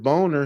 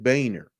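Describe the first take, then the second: First: The name is said like the word 'boner'. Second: The name is said with a 'bay' first syllable. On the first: The speaker calls it wrong. "he didn't pronounce it boner" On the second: The speaker calls it right. "He pronounced it Boehner"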